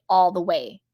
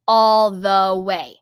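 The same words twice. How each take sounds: First: Said in the usual way. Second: "All the way" loud and drawn out, word by word; emphatic repeat. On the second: Real, not acted. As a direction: punch and stretch every word of "All the way".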